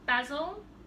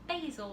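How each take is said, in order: First: It is said with a non-American pronunciation. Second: It is said with an American pronunciation.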